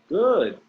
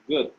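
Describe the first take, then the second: First: The pitch goes up and then down. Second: The pitch stays flat across the word. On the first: The speaker calls it right. "it's supposed to be like good, good. You go up and down" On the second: The speaker calls it wrong. "whenever you say good, you say good"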